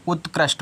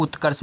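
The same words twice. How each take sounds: First: उत्कृष्ट as ut-krisht, ending in t; correct reading. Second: उत्कर्ष ending in kar-sh, without a t; wrong reading. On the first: Teacher gives children the right reading, उत्कृष्ट with final t. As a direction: finish उत्कृष्ट on a sounded sht. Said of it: "उत्कृष्ट पढ़ देना". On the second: Teacher warns against a misreading, उत्कर्ष with no final t. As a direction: say उत्कर्ष as ut-karsh. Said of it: "तो उत्कर्ष मत पढ़ना". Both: Shown as a demonstration.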